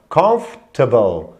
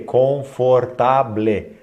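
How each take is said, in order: First: The word is said as one smooth, reduced unit. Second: The word is said in separate, fully pronounced parts. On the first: The speaker calls it right. "como se fosse uma coisa só" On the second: The speaker calls it wrong. "as pessoas olham e lê confortable. Não"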